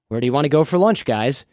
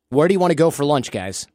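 First: The voice rises at the end like a question. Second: The voice falls at the end like a statement. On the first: The speaker sounds unsure and easy to talk over. The speaker calls it wrong. "instead of saying" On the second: The speaker sounds confident and more dominant. The speaker calls it right. "That's still a question. It's just a more dynamic"

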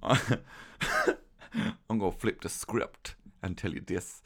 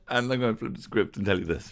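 First: It is said in a put-on voice. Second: It is said in his normal voice.

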